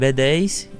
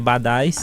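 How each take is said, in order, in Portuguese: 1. O nome é dito como a letra B mais dez. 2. O nome é falado como uma palavra só, badais. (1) "vamos pronunciar a marca da forma como a palavra é correta mesmo" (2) "No início todo mundo chamava Badais"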